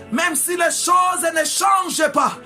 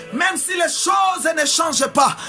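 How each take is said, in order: Both takes have the same delivery.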